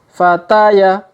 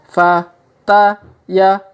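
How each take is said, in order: First: The letters are read quickly. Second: The letters are read slowly. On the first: "Kalau dipercepat" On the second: "kita baca pelan-pelan"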